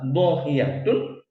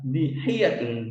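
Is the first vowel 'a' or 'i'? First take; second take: a; i. First: The first vowel is an open a sound. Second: The first vowel is a high i sound. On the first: "di fathah dotnya" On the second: "di kasrah dotnya"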